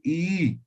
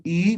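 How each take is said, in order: First: I held for two beats, one smooth sound; long vowel. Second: Said in the usual way. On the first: Shown as a demonstration. Teacher showing the Aymara long I to the class, held out. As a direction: stretch the I to double length. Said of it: "vamos a decir I". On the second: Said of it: "En vez de decir I".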